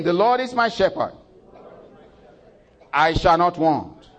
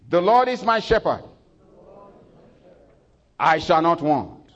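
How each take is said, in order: First: High, loud and slow recital; repeated with congregation. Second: High, loud call-and-response line; leading congregation recital. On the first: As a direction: say it once more, louder for all. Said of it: "Say it again". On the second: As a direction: lead the church in saying it. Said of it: "I want you to say it with me". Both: Acted.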